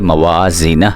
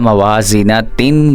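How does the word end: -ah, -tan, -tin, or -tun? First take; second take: -ah; -tin. First: The word ends in a silent h sound. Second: The word ends with a final tin syllable. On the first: The speaker calls it right. "हा के साथ साकिन कर देना" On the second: The speaker calls it wrong. "ता दो ज़ेर तीन ... नहीं पढ़ना"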